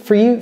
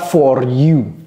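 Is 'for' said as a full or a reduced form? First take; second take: reduced; full. First: The word 'for' is reduced and weak. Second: The word 'for' is full with a strong R. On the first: The speaker calls it right. "for n'est plus for, ça devient for" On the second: The speaker calls it wrong. "ce n'est pas for you"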